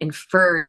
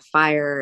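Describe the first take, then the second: First: The word sounds like 'fur'. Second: The word sounds like 'fire'. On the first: This is how rural Wyoming people say it. "fur instead of fire" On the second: This is the usual way to say it. "instead of fire"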